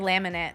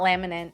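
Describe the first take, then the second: First: The word ends without a final n sound. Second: The word ends with a final n sound. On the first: This is how the speaker habitually says it. "I definitely pronounce that one without the end at the end. Like I'll say" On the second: This is how the word is properly said.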